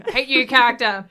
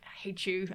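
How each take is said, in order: First: Loud, higher emphatic jeer; mock loathing. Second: Quiet, understated grumble; muted mock loathing. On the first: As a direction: declare your hatred loudly, joking. Repeats the reaction louder, joking. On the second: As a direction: say it softly under your breath, mock hateful. Recounts reacting to a disliked character.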